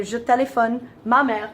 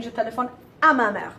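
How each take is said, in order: First: "Je téléphone ma mère" said slowly, with no à; the mistaken form, a little slower; wrong French. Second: "Je téléphone à ma mère" with à clearly said; the correct form at normal pace; correct French. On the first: Teacher showing the common mistake. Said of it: "we wanna say". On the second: Teacher giving the right version after the mistake. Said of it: "I should be saying". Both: Shown as a demonstration.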